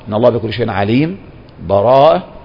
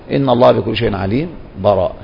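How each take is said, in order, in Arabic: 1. وقف بالنفس قبل الكلمة الأخيرة. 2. سكت خفيف بلا نفس قبل الكلمة الأخيرة. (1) "الوقف ... بالنفس" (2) "أو بالسكت"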